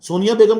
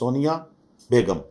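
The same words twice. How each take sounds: First: The two words run together without a pause. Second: There is a pause between the two words. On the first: "इकट्ठा तो बोल रहा हूं।" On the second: "ये pause है।"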